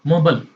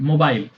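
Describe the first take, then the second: First: It is said in an American accent. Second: It is said in a British accent. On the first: "American accent में इसी को क्या बोलेंगे?" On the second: "British में मोबाइल"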